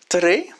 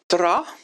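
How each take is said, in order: First: The word ends in an 'e' sound. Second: The word ends in an 'a' sound.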